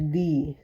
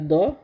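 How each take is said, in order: First: The vowel is a long ee sound. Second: The vowel is a short neutral uh sound. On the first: "और एक होता है दी" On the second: "एक होता है द"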